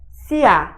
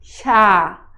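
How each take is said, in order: First: It starts with a plain s, then ia. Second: It starts with an sh sound, then a. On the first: The speaker calls it wrong. "Não é sia" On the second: The speaker calls it right. "É sa, sha"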